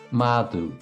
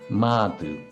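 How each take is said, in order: First: The middle consonant is dropped entirely. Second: The same.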